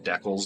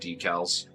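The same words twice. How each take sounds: First: It is said with a Canadian pronunciation. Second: It is said with a non-Canadian pronunciation. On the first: This is how the speaker normally says it. "I pronounce them decals" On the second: This is how others say it. "not decals"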